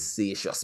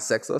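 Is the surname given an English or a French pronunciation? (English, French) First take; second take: French; English. First: The surname has a French-style pronunciation. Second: The surname has a plain English pronunciation. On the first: The speaker calls it right. "it's Seychelles because it's French" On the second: The speaker calls it wrong. "it's not Sexus"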